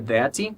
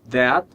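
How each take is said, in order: First: An extra 'ee' vowel follows the final consonant. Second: The word ends cleanly on the consonant. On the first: The speaker calls it wrong. "não é that" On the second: The speaker calls it right. "sem som de i depois"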